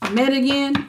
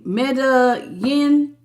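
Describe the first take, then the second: First: "Meta Yin?" quicker, stress on Meta, asking; second try at name. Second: "Meta Yin?" drawn out slowly, first try at the name; unsure name try. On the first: Host checking with a viewer, retrying "Meta Yin?" with Meta stressed. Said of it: "Is that how you say it?". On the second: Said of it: "how you say your name?". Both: Shown as a demonstration.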